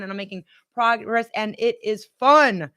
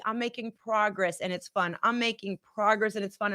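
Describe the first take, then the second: First: Firmer affirmation. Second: Soft affirmation. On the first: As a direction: say it with conviction this time, with a falling finish on "fun". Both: Shown as a demonstration. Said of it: "Say it with me".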